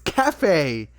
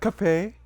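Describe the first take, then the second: First: The two syllables are separated by a gap. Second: The two syllables are run together quickly. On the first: The speaker calls it right. "You have to say it with space" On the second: The speaker calls it wrong. "You can't just say it all at once"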